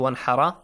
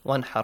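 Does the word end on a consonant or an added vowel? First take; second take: vowel; consonant. First: The word ends with an added vowel a. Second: The word ends on the consonant r. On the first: The speaker calls it wrong. "Do not say one hara" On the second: The speaker calls it right. "Ends in sukoon. Ra has a sukoon on the top. So no changes"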